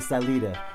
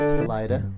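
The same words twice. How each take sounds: First: It is said with a Hispanic pronunciation. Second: It is said with an American pronunciation.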